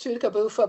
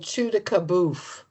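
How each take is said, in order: First: The name ends with a final vowel sound. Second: The name ends on the consonant sound. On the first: This is the technically correct form. "technically it's" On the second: This is how most locals say it. "most people around there just say"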